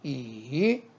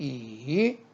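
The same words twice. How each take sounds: First: The pitch dips low then rises. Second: The pitch dips low then rises.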